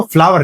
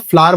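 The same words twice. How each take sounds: First: फ्लावर said as two syllables, flaa-ver; wrong pronunciation. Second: फ्लावर said short, as one syllable flaar; correct pronunciation. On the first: Teacher warning students off the mistake, as flaa-ver. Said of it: "इसको फ्लावर नहीं". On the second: Teacher telling students to say it as flaar. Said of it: "आज के बाद आप फ्लावर बोल देना". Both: Shown as a demonstration.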